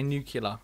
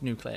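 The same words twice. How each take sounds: First: Nuclear said as NYOO-kyuh-luh; nuclear turned into "new-cue-luh"; habitual mispronunciation. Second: Nuclear said as NOO-klee-uh; nuclear spoken softly as "new-clear"; standard pronunciation. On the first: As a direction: say nuclear with "kyuh" replacing "klee". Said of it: "I always say nuclear". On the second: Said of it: "it's pronounced nuclear". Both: Shown as a demonstration.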